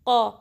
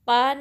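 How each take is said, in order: First: The q and vowel sound full and heavy. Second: The q and vowel sound thin and light. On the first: The speaker calls it right. "हैवी पढ़ेंगे" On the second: The speaker calls it wrong. "क़ा नहीं"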